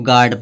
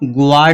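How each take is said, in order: First: No w sound follows the g. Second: A w sound follows the g. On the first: The speaker calls it right. "इसको गार्ड पढ़ेंगे" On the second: The speaker calls it wrong. "इसको ग्वार्ड नहीं पढ़ेंगे"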